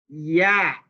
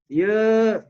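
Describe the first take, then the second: First: The vowel is fully open, mouth wide. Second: The vowel is closer, mouth less open. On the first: The speaker calls it right. "cara membaca yang sempurna" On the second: The speaker calls it wrong. "nggak boleh"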